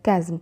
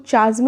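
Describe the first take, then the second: First: The word begins with a k sound. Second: The word begins with a ch sound. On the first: The speaker calls it right. "इसको हम pronounce करते हैं कैज्म" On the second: The speaker calls it wrong. "इसको चाज्म नहीं pronounce करना है"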